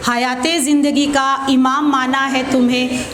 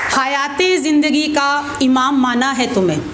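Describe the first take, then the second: No difference in how they are said.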